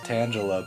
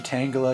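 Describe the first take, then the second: First: The start does not sound like 'tangle'. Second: The start sounds like the word 'tangle'. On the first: This is how the speaker has always said it. "I always just said it as Tangela" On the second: The name comes from being tangled up. "maybe it might be Tangela because like tangle"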